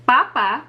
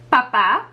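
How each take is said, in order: First: "papa" with the first syllable stressed, falling away. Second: "papá" with the second syllable stressed, rising at the end; stress on last syllable. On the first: Teacher contrasting the word for potato, stress on the first syllable of "papa". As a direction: lean on the first A of "papa", let the second drop. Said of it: "father as opposed to potato". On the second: Teacher showing the word for father, stress on the last syllable of "papá". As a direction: hit the final A of "papá". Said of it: "that accent mark gives it that emphasis". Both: Shown as a demonstration.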